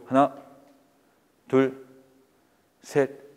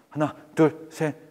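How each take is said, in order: First: The numbers are counted very slowly. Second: The numbers are counted very quickly. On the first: "너무 느리죠" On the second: "너무 빨라"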